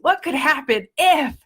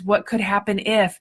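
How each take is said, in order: First: The voice sounds eager and excited. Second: The voice sounds worried and fearful. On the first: Something good might happen. The speaker calls it right. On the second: Something bad might happen. The speaker calls it wrong.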